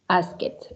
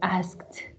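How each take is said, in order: First: The ending is an extra id syllable. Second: The ending is a short t sound. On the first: The speaker calls it wrong. "We can't say ask it ... because it's not correct" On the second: The speaker calls it right. "is pronounced as T"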